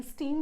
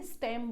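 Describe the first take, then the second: First: स्टीम said with a long ee, as steem; the wrong way: स्टीम, rhyming with team; wrong pronunciation steem. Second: स्टेम said with a short e, as stem; the right way: स्टेम, short clipped e like bed; correct pronunciation stem. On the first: Teacher shows class six the wrong way: स्टीम with long ee. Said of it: "स्टीम नहीं बोलेंगे". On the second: Teacher gives class six the right way: स्टेम with short e. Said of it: "स्टेम बोलेंगे". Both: Shown as a demonstration.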